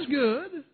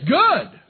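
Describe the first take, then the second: First: The voice rises at the end like a question. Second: The voice falls at the end like a statement.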